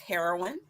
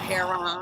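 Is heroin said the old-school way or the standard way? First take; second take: standard; old-school. First: The word is said the ordinary, standard way. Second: The word is said the older, old-school way.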